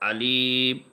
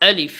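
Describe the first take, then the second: First: The word is drawn out slowly. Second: The word is said quickly without lingering. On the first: The speaker calls it wrong. "এভাবে হবে না" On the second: The speaker calls it right. "দেরি করা যাবে না"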